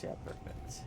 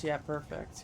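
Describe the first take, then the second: First: Soft unvoiced whisper. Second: Said in the usual way. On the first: Shown as a demonstration. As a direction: whisper it under your breath. Repeats the same words as a whisper.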